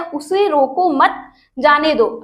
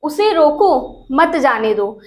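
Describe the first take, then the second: First: Slow "उसे रोको मत", break, then "जाने दो"; pause after MAT. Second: Bind "मत" to "जाने दो", pausing before it; pause after ROKO. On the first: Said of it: "यहाँ पे दो सेंस निकल रहा है". ("मत" के बाद रुककर "जाने दो") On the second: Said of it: "मतलब उसे रोकने के लिए कहा गया है". ("रोको" के बाद रुककर "मत जाने दो") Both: Shown as a demonstration.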